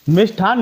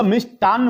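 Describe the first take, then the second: First: मिष्ठान said mish-thaan, with an aspirated th and a single n; teacher saying मिष्ठान as mish-thaan, the common error; wrong form mishthan. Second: मिष्टान्न said mish-taann, with a plain t and a doubled n; teacher saying मिष्टान्न as mish-taann; correct form mishtann. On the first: Teacher warns students against मिष्ठान, said mish-thaan. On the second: Teacher gives students the right मिष्टान्न, said mish-taann. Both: Shown as a demonstration. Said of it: "मिष्ठान नहीं होता".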